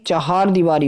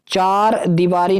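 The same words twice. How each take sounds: First: चहार दीवारी with a clear h, "cha-haar"; चहार दीवारी said as "chahaar diwari"; correct pronunciation. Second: चार दीवारी with a short plain "char", no h sound; चार दीवारी spoken slowly as the mistaken "chaar diwari"; wrong form said as a warning. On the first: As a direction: sound the h in चहार दीवारी plainly, the teacher's model form. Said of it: "चहार दीवारी होता है". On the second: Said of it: "चार दीवारी नहीं". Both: Shown as a demonstration.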